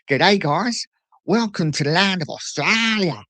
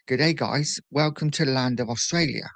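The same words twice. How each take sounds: First: It is said in a put-on Australian accent. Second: It is said in a plain, neutral English accent. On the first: "you've got to put the accent" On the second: "She's just speaking perfect English"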